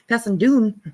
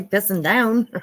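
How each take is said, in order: First: Playful attempt at a Scottish accent. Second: Said in the usual way. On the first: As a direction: say "down" as "doon", Scottish style. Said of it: "I'm horrible at it". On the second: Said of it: "I didn't want to say pissing down".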